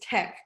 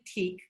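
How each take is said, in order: First: The vowel is a short 'e' sound. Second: The vowel is a long 'ee' sound. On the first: The speaker calls it right. "but I believe it's tech" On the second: The speaker calls it wrong. "I always say it wrong, I always say teak"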